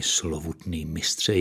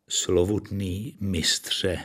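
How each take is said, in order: First: Said in the usual way. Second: Halting, drawn-out address; stammering. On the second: A narrator's reading. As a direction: stammer it out slowly and reverently. (váhavě, jako když koktá) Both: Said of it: "koktal Frank Selwyn".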